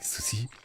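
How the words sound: It is said with a Japanese pronunciation. "in Japanese, it's like sushi"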